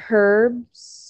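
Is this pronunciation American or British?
British. It is said with a British pronunciation.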